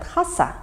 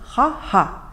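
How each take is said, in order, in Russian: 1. Второй согласный — это звук s. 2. Второй согласный — это звук h. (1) "некоторые якуты говорят хаса" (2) "но правильнее будет говорить ха-ха"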